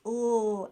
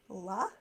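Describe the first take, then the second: First: The L sound is held alone, without a vowel. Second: The L sound is followed by an added vowel. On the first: The speaker calls it right. "it's really important that we pronounce ooh" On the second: The speaker calls it wrong. "and not la"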